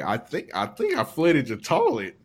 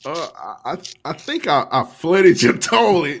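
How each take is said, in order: First: Imitating a calm, matter-of-fact admission; mock-calm owning up, no extra volume; calm confession. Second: Mock confession, stretched and loud at the end; co-host's confession. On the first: Retelling the co-host's toilet confession, mock calm. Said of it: "He just said it calmly". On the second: Co-host owning up to the flooded toilet, stammering, building louder.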